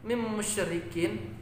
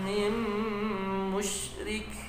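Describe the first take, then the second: First: The last word keeps its full ending sounds. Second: The last word stops, dropping its ending sounds. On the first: The speaker calls it wrong. "ketika waqaf tetap dibaca huruf kafnya" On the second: The speaker calls it right. "Jadi cukup mewaqafkan kafnya"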